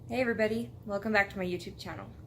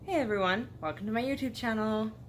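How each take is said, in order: First: It is said in a calmer way. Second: It is said in a very perky way.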